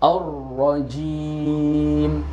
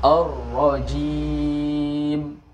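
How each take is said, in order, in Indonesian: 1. Huruf m di akhir ditahan dengan bibir tertutup rapat. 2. Huruf m di akhir ditahan dengan bibir tertutup rapat.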